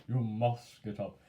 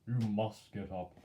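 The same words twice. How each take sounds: Both takes have the same delivery.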